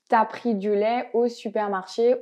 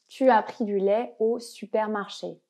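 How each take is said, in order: First: The vowel of tu is dropped: t'as. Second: Tu and as are both said fully.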